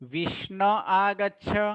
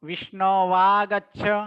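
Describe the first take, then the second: First: The v sound is dropped between the words. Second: A v sound joins the two words. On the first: "જ્યારે લોપ કરીએ ત્યારે" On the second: "જ્યારે લોપ ન કરીએ"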